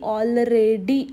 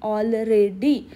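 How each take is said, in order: First: Each syllable is pronounced separately and carefully. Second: Each syllable is pronounced separately and carefully.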